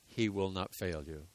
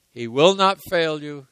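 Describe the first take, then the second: First: Quiet assurance. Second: Not hit high and loud; stress on not. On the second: Preacher insists to the congregation, stressing not. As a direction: punch the word not, louder. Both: Shown as a demonstration.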